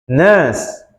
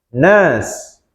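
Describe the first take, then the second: The two takes are said the same way.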